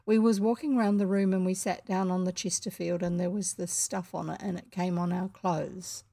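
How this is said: It is said flatly, monotonously, in one breath.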